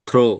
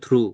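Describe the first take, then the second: First: The vowel sounds like 'oh', as in throw. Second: The vowel sounds like 'oo', as in true. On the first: The speaker calls it wrong. "Not থ্রো। থ্রো হবে না" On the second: The speaker calls it right. "কিন্তু উচ্চারণটা কি হবে? থ্রু"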